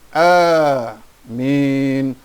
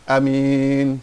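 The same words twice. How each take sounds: First: The first vowel is long, drawn out. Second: The first vowel is short, not drawn out. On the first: The speaker calls it right. "Dalam Islam kita katakan amin" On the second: The speaker calls it wrong. "Tak boleh amin, salah"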